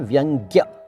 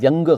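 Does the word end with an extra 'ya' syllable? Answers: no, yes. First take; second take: yes; no. First: The word ends with a final 'ya' syllable. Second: The word ends in 'vyang' with no final syllable. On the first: The speaker calls it right. "व्यंग्य सही शब्द है" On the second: The speaker calls it wrong. "व्यंग गलत है"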